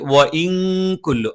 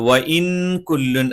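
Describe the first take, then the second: First: The n sound is hidden and nasalized. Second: The n sound is pronounced fully and clearly. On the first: The speaker calls it right. "അവ്യക്തമായി" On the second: The speaker calls it wrong. "എന്ന് പറയരുത്"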